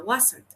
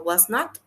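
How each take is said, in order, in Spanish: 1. Se dice como una sola palabra contraída. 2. Se dice como dos palabras completas. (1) "con contraction" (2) "sin contraction"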